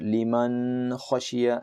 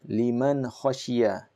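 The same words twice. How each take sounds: First: The nasal n sound is held longer. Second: The n sound is short and clear. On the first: The speaker calls it wrong. "you should not say or pronounce it" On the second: The speaker calls it right. "It will be clear and distinct, very clear, fluid"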